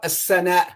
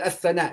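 First: The middle consonant is an s sound. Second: The middle consonant is a th sound. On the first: The speaker calls it wrong. "this one is not a sana" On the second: The speaker calls it right. "so you say athana, exactly"

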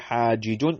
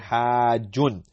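First: The two j sounds are split by a vowel. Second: The j sound is held as one doubled consonant. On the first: The speaker calls it wrong. "we don't say hajijun" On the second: The speaker calls it right. "we say hajjun"

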